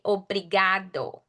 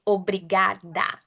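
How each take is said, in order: First: "obrigado" with an open, long "ga"; "obrigado" in clear Portuguese, open vowels; open Portuguese sounds. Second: "obrigada" ending on an open "da"; "obrigada" in Portuguese, open vowels; open Portuguese sounds. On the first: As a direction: model "obrigado" for learners, ending in "do". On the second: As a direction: model "obrigada" with a clear final "ah". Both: Shown as a demonstration. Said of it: "those are open sounds".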